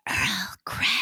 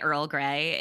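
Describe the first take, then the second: First: It is said in a soft ASMR whisper. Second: It is said in a normal speaking voice.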